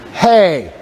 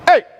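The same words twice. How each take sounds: First: The vowel starts with a breathy puff of air. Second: The vowel starts with a hard glottal catch. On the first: It feels more intimate. "in an aspirant onset ... you put an H on the front" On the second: It grabs someone's attention. "say A in a glottal onset"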